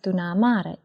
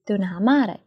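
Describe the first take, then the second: First: It is said fast, dropping the h sound. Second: It is said fully, keeping the h sound.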